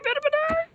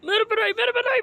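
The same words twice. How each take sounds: First: Much higher squeal on "मेरे बनाई"; squealing whine. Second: Higher whine. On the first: Same whine pushed higher. ("मेरे बनाई" बहुत ऊँची चीख़ में) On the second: Character whines repeatedly. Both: Acted.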